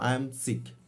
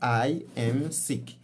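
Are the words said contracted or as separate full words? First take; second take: contracted; full words. First: The first two words are joined into one. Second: Each word is said separately and in full. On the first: The speaker calls it right. "algumas palavras ou frases ou mesmo letras são omitidas" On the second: The speaker calls it wrong. "Como se estivesse a, a, a dizer palavra por palavra"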